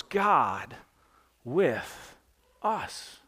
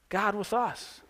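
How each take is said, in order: First: Each word set apart with long pauses, quiet; slow reverent emphasis on each word. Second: Said in the usual way. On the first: Shown as a demonstration. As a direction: lay down God, with, us one at a time. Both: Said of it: "Three simple words".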